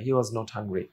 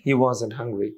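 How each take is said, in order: First: 'Was' and 'not' are said as separate words. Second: 'Was' and 'not' are joined into one word. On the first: "সব word গুলো উচ্চারণ করেও বলতে পারেন" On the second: "was not এটা হতে পারে হচ্ছে wasn't"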